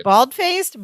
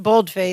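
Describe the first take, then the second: First: "Bald-faced" with the open vowel of bald; "Bald-faced", first word as in a bald head. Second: "bold-faced" with the long o of bold; "bold-faced", first word rhyming with cold; vowel of "bold". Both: Shown as a demonstration. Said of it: "They both work".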